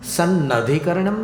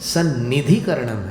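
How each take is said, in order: First: The vowel after 'sann' is 'a'. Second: The vowel after 'sann' is 'i'. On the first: The speaker calls it wrong. "सन्नधिकरणम नहीं है" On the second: The speaker calls it right. "सन्निधिकरणम है"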